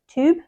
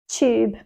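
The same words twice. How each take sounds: First: The word is said in an American accent. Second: The word is said in a British accent. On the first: "in American, they might say something like tube" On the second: "This is in a British accent"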